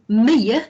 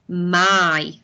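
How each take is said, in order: First: The word is sounded out, rhyming with "see". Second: The word is said normally, rhyming with "sky". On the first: The speaker calls it wrong. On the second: The speaker calls it right.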